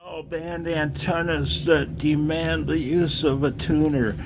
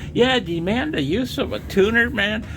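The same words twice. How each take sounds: First: Lightly voiced know-it-all ham, sneering; mocking quote. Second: High, scornful disbelief; incredulous. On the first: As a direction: parrot the other hams with scorn. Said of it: "when I hear". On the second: Real, not acted. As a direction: throw their words back at them, much higher. Echoes the claim in disbelief.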